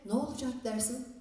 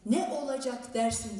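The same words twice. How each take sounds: First: Syllables are shortened and run together casually. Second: Every syllable is pronounced fully and carefully. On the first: This is how it is said in speech. "ama konuşurken" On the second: This is how it is written. "diye yazarız"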